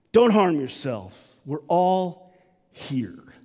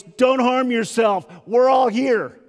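First: Slowed; tender call. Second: A big bold call across the cell; loud cry. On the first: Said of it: "he yells out". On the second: Paul calling to the jailer, loud cry. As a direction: shout it out loud and slow. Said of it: "cries out with a loud voice". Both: Acted.

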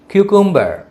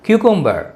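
Both takes have the same delivery.

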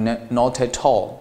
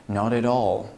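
First: Slow "not at all" linked with hard, puffed t's; "not at all" joined up, each t crisp and aspirated; intermediate learner's reading. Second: "not at all" run together as nah-deh-dall; "not at all" as one word, t's voiced like light d's; smoothly linked. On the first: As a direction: mimic a student linking "not at all" as no-teh-tall. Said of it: "比较有基础的同学可能会读成". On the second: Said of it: "你听一下我是怎么把这三个单词啊连接到一起的". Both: Shown as a demonstration.

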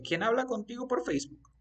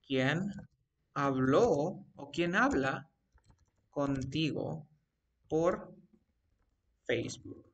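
First: Higher, flowing acted question; natural question. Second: Word by word, pausing between chunks; slow dictation. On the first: Teacher asks the student who talks on Facebook, higher natural question. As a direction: ask it in one run, pitched up. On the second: Teacher dictates a Facebook example to the student, slow dictation. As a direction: leave gaps as if writing while speaking. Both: Shown as a demonstration.

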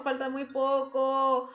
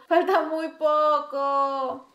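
First: Said in the usual way. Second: Slow, louder stretched plea; drawn-out hopeful plea; drawn-out strain. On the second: Real, not acted. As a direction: stretch each word out, pleading.

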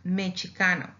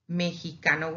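First: "mexicano" with ch for the x, me-chee-KA-no; old CH pronunciation. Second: "mexicano" with an h-like Spanish j, me-hee-KA-no. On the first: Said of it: "And before that, it was pronounced". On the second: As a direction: say "mexicano" with j in place of x. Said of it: "with a J". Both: Shown as a demonstration.

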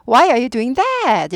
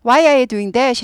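First: "that" stressed. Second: Said in the usual way. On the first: Shown as a demonstration. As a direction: punch the word "that". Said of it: "이렇게 돼야 돼요". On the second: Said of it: "대문자 쓰면".

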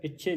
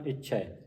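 First: ਇੱਛੇ ending in closed "e"; mispronounced ਇੱਛੇ. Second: ਇੱਛਾ ਹੈ as one word "ichhai", open ending; ਇੱਛੈ with dulavan. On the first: Teacher showing the reading to avoid, ਇੱਛੇ ending closed e. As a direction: finish ਇੱਛੇ on "chhe". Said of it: "ਇੱਛੇ ਨਹੀਂ ਪੜ੍ਹਨਾ". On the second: Teacher modelling the dulavan, ਇੱਛਾ ਹੈ said "ichhai". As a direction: finish ਇੱਛਾ ਹੈ as a wide "chhai". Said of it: "ਤਲਾਵਾਂ". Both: Shown as a demonstration.

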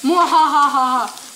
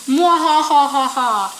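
First: Mad scientist. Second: Slow, loud evil laugh; mad scientist. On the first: Pretend. Scary guy, evil laugh. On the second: Retold or imitated. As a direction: cackle like a cartoon villain. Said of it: "It says".

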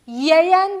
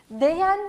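First: "Yeyen" said slowly and loud; wrong form. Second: "Değen" said slowly and stressed; wrong form. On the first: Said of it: "Yeyen değil". ("Yeyen" yanlış biçim, yavaş ve yüksek) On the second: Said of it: "Değen değil, diyen". ("Değen" yanlış biçim, yavaş ve vurgulu) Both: Shown as a demonstration.

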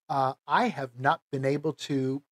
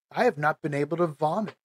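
First: Said in the usual way. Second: Fast, just getting it out; blurted out. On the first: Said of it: "I don't know how to put this". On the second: Real, not acted. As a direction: rush through the awkward confession. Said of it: "so I'll just say it".

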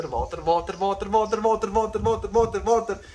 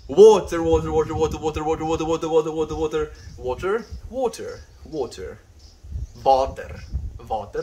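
First: WATER said with a V, as "vah-ter"; water on request. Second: WATER chanted fast with a W, high and loud; water on request. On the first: Answering a viewer's request, WATER with a v sound, rising in a rapid chant. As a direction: repeat WATER as "vaw-ter", climbing much higher and louder. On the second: Viewer asks him to say water, rapid high-pitched repeats of WATER with a W. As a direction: rattle off WATER with an English w sound, high and loud. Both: Shown as a demonstration. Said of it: "Can you say water?".

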